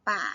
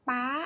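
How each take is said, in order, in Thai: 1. พยางค์นี้ออกเสียงด้วยเสียงต่ำ 2. พยางค์นี้ออกเสียงด้วยเสียงสูง (1) "เอก" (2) "ตรี"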